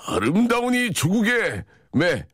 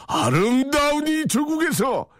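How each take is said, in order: First: 아름다운 이 조국의 매 read slowly, higher; 매 landed with a falling close; slow recital. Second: 아름다운 이 조국에서 drawn out high and slow; 이 조국에서 stretched like a chant; slow sing-song recital. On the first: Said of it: "매를 한번 만들어". (천천히 높게 읊기) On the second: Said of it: "아를 해드릴게요". (느리고 높게 읊는 낭송) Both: Shown as a demonstration.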